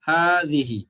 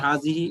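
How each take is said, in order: First: The first vowel is drawn out long. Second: The first vowel is short. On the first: The speaker calls it right. "উচ্চারণের সময় এক আলিফ অ্যা টানতে হবে" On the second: The speaker calls it wrong. "হাযিহি এরকম একটা উচ্চারণ হওয়ার আ আ মনে হয় আপনাদের কাছে"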